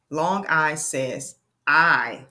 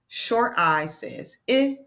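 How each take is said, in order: First: I said long as eye, slow and falling; teacher modelling long I; long I sound. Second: I said as short ih, rising; teacher modelling short I; short I sound. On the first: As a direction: stretch I into its name, eye. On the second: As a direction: clip I to a quick ih. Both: Shown as a demonstration. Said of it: "vowel demo".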